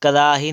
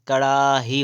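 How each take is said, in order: First: "कड़ाही" with plain r, karaahi; wrong middle r. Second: "कड़ाही" slow, with retroflex ṛ; correct flap. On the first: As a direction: say "कड़ाही" without the flap. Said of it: "कड़ाही नहीं होता है". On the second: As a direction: curl the ṛ of "कड़ाही" slowly. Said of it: "कड़ाही होता है". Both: Shown as a demonstration.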